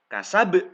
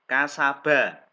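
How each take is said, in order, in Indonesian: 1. Kata ini berakhir pada konsonan pantul yang kuat. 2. Kata ini berakhir pada vokal penuh. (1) "Dibaca waqaf kasab. ... ini ba-nya te tebal" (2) "Ba-nya harokat fathah"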